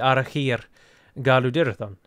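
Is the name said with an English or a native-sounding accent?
native. The name is said with a native-sounding accent. The speaker calls it right. "it should be"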